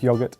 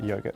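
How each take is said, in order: First: It is said with a British pronunciation. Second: It is said with an American pronunciation. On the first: The speaker calls it right. "it's pronounced yogurt" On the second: The speaker calls it wrong. "not yogurt, get it right"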